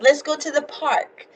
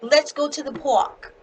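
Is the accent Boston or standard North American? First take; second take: standard; Boston. First: It is said in a standard North American accent. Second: It is said in a Boston accent.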